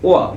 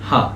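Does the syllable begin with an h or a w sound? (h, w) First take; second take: w; h. First: The syllable begins with a w sound. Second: The syllable begins with an h sound.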